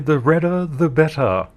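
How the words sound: It is said in an English accent.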